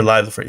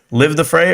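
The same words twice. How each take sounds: First: Live rhymed with five, long i. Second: Live rhymed with give, short i. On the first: Streamer checks the other way to say it, long i live. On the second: Streamer asks chat which way to say it, short i Live. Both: Shown as a demonstration. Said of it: "Live the fray or live the fray?".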